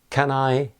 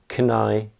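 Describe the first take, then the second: First: The word 'can' is said with a full vowel. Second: The word 'can' is shortened to a weak vowel. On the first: "Instead of saying" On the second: "you will very often hear people say"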